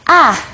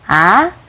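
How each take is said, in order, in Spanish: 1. Se dice con el cuarto tono. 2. El tono sube como en una pregunta. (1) "el último es A" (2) "el segundo tono, que es como un tono de pregunta"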